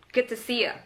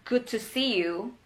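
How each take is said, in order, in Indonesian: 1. Kata terakhir dipendekkan menjadi 'ya'. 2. Kata terakhir diucapkan penuh sebagai 'you'. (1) "They just say good to see ya. It's faster" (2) "it's a proper way to say it"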